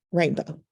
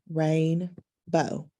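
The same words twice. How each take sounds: First: Said in the usual way. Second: "rainbow" with a clear pause between rain and bow; split into syllables. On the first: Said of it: "what's the word?". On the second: Shown as a demonstration. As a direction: give "rainbow" slowly as rain, then bow. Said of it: "the syllables are".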